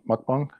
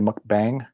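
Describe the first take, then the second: First: The last syllable has a broad 'ah' vowel. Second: The last syllable has a flat 'a' vowel. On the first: This is the original Korean pronunciation. "the proper way to pronounce it" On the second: This is the common American pronunciation. "the Americans say mukbang"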